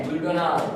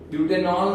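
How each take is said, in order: First: Said in the usual way. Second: "ब्यूटेनॉल" with a muddled "-nonl" ending; wrong pronunciation. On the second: Shown as a demonstration. Teacher showing what not to say, wrong pronunciation. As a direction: slur the last syllable of "ब्यूटेनॉल". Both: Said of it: "ब्यूटेनॉल नहीं है".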